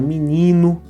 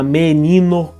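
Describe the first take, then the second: First: The first vowel is raised to an i sound. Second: The first vowel is pronounced as an e sound. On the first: This is the everyday spoken form. "quando a gente fala" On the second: This is the official standard form. "como é normal assim na norma culta"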